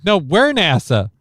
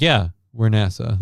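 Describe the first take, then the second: First: "we're" punched, higher and louder; stress on we're. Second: Said in the usual way. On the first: Retold or imitated. Americans insisting on the name, "we're" stressed. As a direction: hit "we're" hard, no we're nasa. Voicing the quarrel back.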